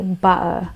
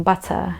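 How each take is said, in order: First: "butter" with a catch in place of the T; Cockney "butter", like "bu'uh"; silent T. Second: "butter" with the T pronounced as T; sounded T. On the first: Showing what some Londoners say, T dropped. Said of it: "where the T is silenced". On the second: Teacher showing the standard word, T sounded. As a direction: RP "butter", ending in "tuh". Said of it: "instead of saying butter". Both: Shown as a demonstration.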